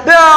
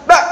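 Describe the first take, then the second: First: "ba" with a long throaty tail; over-released ain. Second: "ba" cut off like a hamzah; fully stopped ain. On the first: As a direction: drag out the ain that closes "ba". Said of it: "itu dirikhwahkan". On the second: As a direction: snap "ba" shut with a glottal stop. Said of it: "dibaca syiddah". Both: Shown as a demonstration.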